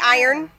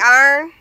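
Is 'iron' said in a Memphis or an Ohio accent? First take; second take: Ohio; Memphis. First: It is said with a local Ohio accent. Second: It is said with a Memphis, Southern accent.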